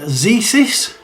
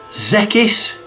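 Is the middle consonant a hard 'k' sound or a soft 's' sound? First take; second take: soft; hard. First: The middle consonant is a soft 's' sound. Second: The middle consonant is a hard 'k' sound.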